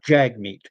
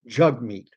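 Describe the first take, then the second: First: The name is read as it is spelled. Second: The name is said in its native way. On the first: The speaker calls it wrong. "It's not the way it's pronounced" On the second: The speaker calls it right. "It's pronounced Jagmeet"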